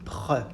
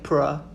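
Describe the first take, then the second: First: The R is a French throaty R. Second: The R is an English-style R. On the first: The speaker calls it right. "It's not English. So pr" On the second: The speaker calls it wrong. "So please stop saying pr"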